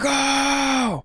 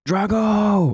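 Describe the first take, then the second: First: The shout is fierce and aggressive. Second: The shout is fairly mild and restrained.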